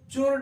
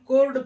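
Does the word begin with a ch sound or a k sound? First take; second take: ch sound; k sound. First: The word begins with a ch sound. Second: The word begins with a k sound. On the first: The speaker calls it wrong. "इसको चोर्ड नहीं पढ़ते हैं" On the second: The speaker calls it right. "कोर्ड पढ़ते हैं"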